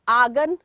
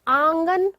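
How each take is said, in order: First: The first vowel is plain, without nasal sound. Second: The first vowel is nasalized through nose and mouth. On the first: The speaker calls it wrong. "इनमें हमने अनुनासिक का प्रयोग नहीं किया" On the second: The speaker calls it right. "नाक और मुंह दोनों का प्रयोग हो रहा है और अनुनासिक ध्वनि इनमें आ रही है"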